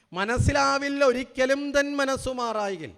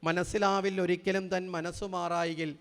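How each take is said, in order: First: Louder, slow, weight on തൻ with a falling close; loud slow declaiming of മനസ്സിലാവിൽ ഒരിക്കലും തൻ മനസ്സു മാറായികിൽ; emphatic recital. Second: Slow, measured chanting of the verse; poem recital. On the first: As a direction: declaim the verse, hitting തൻ. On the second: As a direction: recite the verse line calmly, unhurried. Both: Shown as a demonstration. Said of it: "എഴുതി വച്ചിരിക്കുന്നത്".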